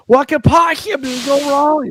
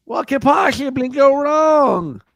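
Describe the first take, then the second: First: High, spitty nerdy voice; nerd voice. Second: High, slow, spitty nerd shout. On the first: Retold or imitated. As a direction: quote it like a lisping nerd. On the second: Pretend. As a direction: belt the catchphrase like a nerd. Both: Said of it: "the nerd voice you do".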